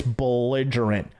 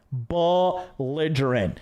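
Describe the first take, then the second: First: Said in the usual way. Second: Belligerent stretched very slowly, every syllable drawn out. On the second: Shown as a demonstration. Repeating belligerent to the viewers, drawn out slowly. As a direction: savor the word belligerent, pulling it long.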